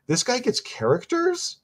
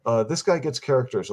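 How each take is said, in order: First: "This guy gets characters" said slowly with a much higher, question-like rise; Valley Girl uptalk. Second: Said in the usual way. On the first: Shown as a demonstration. Reviewer mocks how people make statements sound like questions, slow high uptalk. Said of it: "that's the Valley Girl". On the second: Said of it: "do that with their voice".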